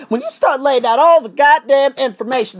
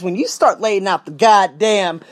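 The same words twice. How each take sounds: First: Higher, louder, punch goddamn; fired up lecturing viewers; emphatic restart. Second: Said in the usual way. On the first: Real, not acted. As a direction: restart it with force.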